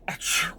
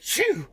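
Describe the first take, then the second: First: The sneeze sound is quiet and restrained. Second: The sneeze sound is loud and explosive.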